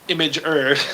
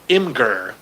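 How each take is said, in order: First: The first part sounds like the word 'image'. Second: The first part does not sound like 'image'. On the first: The speaker calls it right. "I M G image and then er" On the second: The speaker calls it wrong. "he pronounced it wrong"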